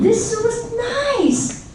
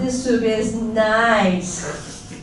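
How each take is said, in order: First: It sounds sincere and genuinely pleased. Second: It sounds forced and insincere. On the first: The speaker really likes the soup. "then I probably mean it" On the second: The speaker dislikes the soup but is being polite. "you understand that I don't like the soup. I'm just trying to be nice"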